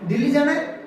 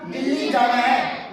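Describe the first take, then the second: First: It is said as a question, rising. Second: It is said as a statement, falling.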